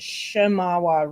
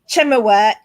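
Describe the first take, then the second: First: The name begins with a sh sound. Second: The name begins with a ch sound. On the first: This is how people in the area say it. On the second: This is how a computer reading says it.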